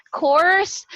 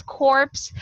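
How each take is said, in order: First: "Corpse" said with no P sound, like "cors"; silent P. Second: "corpse" with the P clearly pronounced before the S; sounded P. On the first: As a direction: leave out the P in "Corpse". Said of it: "we don't actually pronounce the P". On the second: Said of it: "you pronounce it as corpse". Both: Shown as a demonstration.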